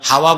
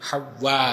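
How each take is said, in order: First: The middle w sound is single and light. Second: The middle w sound is doubled and held. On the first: It means wind or air. The speaker calls it wrong. "হাওয়া বলেন আপনারা, হাওয়া তো বাতাস" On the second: It is the name of the first woman. The speaker calls it right. "বিতাশদীদ লাইসা বিতাকফিফ"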